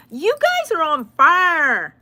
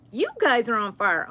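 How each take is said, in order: First: Slow, high, loud hyped-up praise; drawn-out gleeful shout; excited praise. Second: Said in the usual way. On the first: Real, not acted. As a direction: stretch it out like a cheer. Praising viewers for likes.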